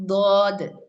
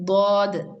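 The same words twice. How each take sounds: The two takes are said the same way.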